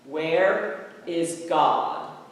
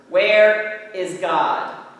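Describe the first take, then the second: First: It is said sternly at moderate volume. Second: It is said louder and sterner.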